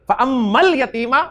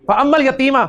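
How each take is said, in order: First: फअम्मल यतीमा slowed, leaning on the "mal"; slow teaching repeat of फअम्मल यतीमा, L emphasized; stress on the lam. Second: Said in the usual way. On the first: Shown as a demonstration. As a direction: draw out "Ammal" so its L is clearly heard in फअम्मल यतीमा. Repeat slowed to show the sounded lam.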